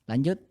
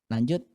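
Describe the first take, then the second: No difference in how they are said.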